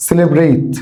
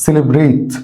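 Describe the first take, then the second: No difference in how they are said.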